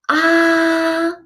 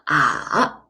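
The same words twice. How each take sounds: First: The pitch stays high and level throughout. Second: The pitch dips low and then rises. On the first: "It's a high flat tone" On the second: "goes down first and then rises up"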